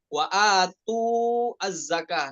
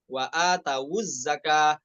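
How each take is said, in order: First: The w is vowelless with a break before zakah. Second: The w carries a u vowel linking into zakah. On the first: The speaker calls it wrong. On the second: The speaker calls it right.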